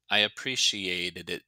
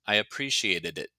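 First: "I appreciated it" linked, a touch more deliberate; careful connected "I appreciated it"; bouncy tongue. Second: "I appreciated it" run together, bouncy tongue on the ending; connected, everyday-speed "I appreciated it"; normal speed. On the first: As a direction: tap out the "did it" ending of "I appreciated it". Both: Shown as a demonstration. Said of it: "bouncy tongue at normal speed".

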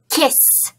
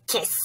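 First: Said in the usual way. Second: Softer echo of "Kiss."; quiet puppet echo. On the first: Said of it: "repeat the word after me". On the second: Shown as a demonstration. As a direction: say it back quietly. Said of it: "You and Steve will repeat".

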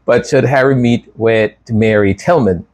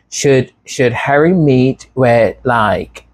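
First: Said in the usual way. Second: Put-on drawn-out, lightly Valley Girl question. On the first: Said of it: "I don't know why I'm going". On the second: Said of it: "going to the Valley Girl voice".

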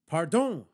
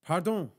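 First: Louder, more heartfelt pardon; louder, with feeling. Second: Said in the usual way. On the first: A narrator's reading. Told to be louder, saying sorry to a policeman, with feeling. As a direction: put some feeling and volume into it. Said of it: "this time with feeling".

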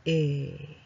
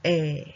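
First: え said with a narrower mouth; long, less open え. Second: え said with the mouth opened wide; long, more open え. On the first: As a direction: tighten the vowel in え. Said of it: "三番はもうちょっと細く、". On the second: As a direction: open up the vowel in え. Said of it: "えはもうちょっと口を広くして、". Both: Shown as a demonstration.

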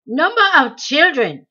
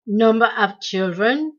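First: Higher, louder impatient snap; snapped. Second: Droned. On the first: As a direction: bite off the question in irritation. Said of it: "he snapped". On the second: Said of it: "droned the interrogator". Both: A narrator's reading.

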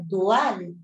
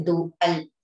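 First: "Dual" with u and a in separate syllables; two-syllable "Dual", hiatus kept; corrected pronunciation. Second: "dual" as people commonly say it; "dual" as one glided syllable; common mispronunciation. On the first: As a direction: say "Dual" as du-al, stress on al. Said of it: "nada que ver. Dual". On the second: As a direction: say "dual" the everyday way, vowels run together. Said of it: "La gente dice dual". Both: Shown as a demonstration.

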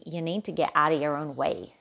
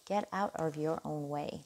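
First: Said in the usual way. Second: A quick, self-mocking stab at an American accent; hammy American accent on the repeat, not quite landing; terrible American accent. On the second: Tarot reader repeats her advice to Scorpio in a bad American accent. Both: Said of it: "That was a terrible American accent".

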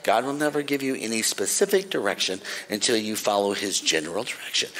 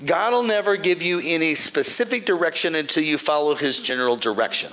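First: Repeated deliberately, a bit lower; repeated slowly. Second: Said in the usual way. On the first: Shown as a demonstration. Preacher repeating the rule so listeners write it down, deliberate. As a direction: lay out each word so it sinks in. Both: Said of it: "I'm gonna say it again slowly".

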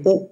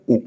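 First: उ as a brief short u; short, small उ sound; short vowel. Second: उ held as a long oo; sustained, big उ sound; long vowel. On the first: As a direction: say उ quickly, without holding it. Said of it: "छोटा उ". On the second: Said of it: "बड़ा उ". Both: Shown as a demonstration.

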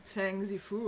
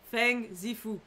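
First: Soft sighing delivery, quieter and lower; sighed name. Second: Said in the usual way. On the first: Shown as a demonstration. Reading the character's lovesick sigh, sighed softly. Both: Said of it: "Je rêve, il a soupiré".

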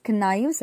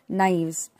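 First: "knives" with a sounded k, k-naives; "knives" said with the k heard; wrong "knives". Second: "knives" with a silent k, naivz; correct "knives". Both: Shown as a demonstration. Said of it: "K is silent".

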